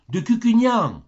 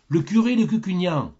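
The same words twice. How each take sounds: First: « Cucugnan » lancé plus haut et plus fort; le curé répète « De Cucugnan » en appuyant nettement sur « Cucugnan »; insiste sur Cucugnan. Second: Said in the usual way. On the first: Acted. (le curé répète au gardien, en haussant fort la voix sur « Cucugnan »)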